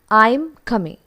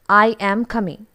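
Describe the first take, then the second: First: The words are said in a weak, contracted form. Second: The words are said in full, strong forms. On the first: The speaker calls it right. "This should actually be pronounced as" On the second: The speaker calls it wrong. "But we pronounce it as"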